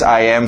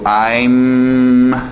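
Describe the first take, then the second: First: It is said as two separate full words. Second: It is contracted into one short syllable.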